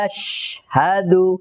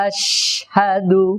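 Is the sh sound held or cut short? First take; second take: held; held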